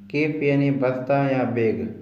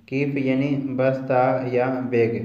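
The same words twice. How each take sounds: The two takes are said the same way.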